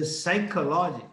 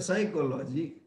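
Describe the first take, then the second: First: Said in the usual way. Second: "psychology" said as written, with a P; puh-sy start on "psychology"; spelling pronunciation. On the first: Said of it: "You say psychology". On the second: Shown as a demonstration. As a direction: voice the P before the S in "psychology". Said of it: "You write psychology".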